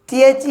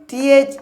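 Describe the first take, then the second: No difference in how they are said.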